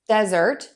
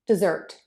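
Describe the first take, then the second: First: "desert" with a longer first vowel, DEZ-ert; stress on first syllable. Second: "dessert" with a longer second vowel, de-ZERT; short start, longer "zert" in "dessert"; stress on second syllable. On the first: Teacher shows vowel length to learners, first syllable of "desert" stressed. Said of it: "That vowel is a little bit longer in desert". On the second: Teacher shows vowel length to learners, second syllable of "dessert" stressed. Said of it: "zert is going to be the longer vowel". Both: Shown as a demonstration.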